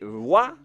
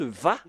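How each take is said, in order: First: The syllable begins with a rounded W sound. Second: The syllable begins with a buzzing V sound. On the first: The speaker calls it wrong. "Est-ce que c'est Wa la prononciation, comme euh, avec les Anglais" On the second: The speaker calls it right. "ou est-ce qu'on le prononce Va? ... la bonne prononciation, c'est Va"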